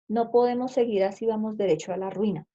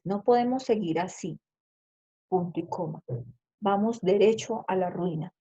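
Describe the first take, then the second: First: It is read straight through without a long pause. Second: There is a longer pause after the first phrase. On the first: The sentence has no punctuation mark. "Así lo leería porque no tiene ningún signo de puntuación" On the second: A semicolon separates the two phrases. "tengo que darle la pausa como debe ser"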